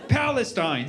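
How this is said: The name is said with English pronunciation. The name feels stale. The speaker calls it wrong.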